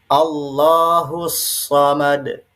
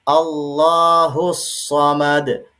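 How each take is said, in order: No difference in how they are said.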